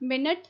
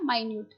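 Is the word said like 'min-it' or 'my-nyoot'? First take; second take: min-it; my-nyoot. First: The word is said as min-it. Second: The word is said as my-nyoot. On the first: It means a unit of time or very small. "मिनट या माइन्यूट" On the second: It means exact. "मिनट या माइन्यूट"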